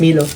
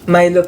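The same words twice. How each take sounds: First: Milo is said the Malaysian way. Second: Milo is said the Singaporean way. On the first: "sa Malaysia, ang pag-pronounce ng ice Milo is ice Milo" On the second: "Milo pala pag-pronounce dito"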